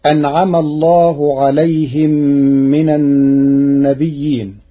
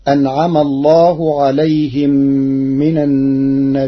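First: Said in the usual way. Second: النبيين with a hamza after the ya, nabi'iin; Warsh reading. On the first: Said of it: "قرأ ورش كلمة النبيين". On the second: Shown as a demonstration. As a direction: put a glottal stop in النبيين and stretch it for six counts. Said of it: "بالهمز بعد الياء الساكنة".

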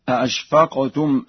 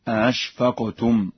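First: Said in the usual way. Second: "أأشفقتم" with the second hamza softened; Warsh reading. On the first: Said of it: "بتسهيل الهمزة الثانية". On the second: Shown as a demonstration. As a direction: glide over the second hamza of "أأشفقتم", between glottal stop and vowel. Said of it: "بتسهيل الهمزة الثانية بين بين هكذا". ("أأشفقتم" بتسهيل الهمزة الثانية بين بين)

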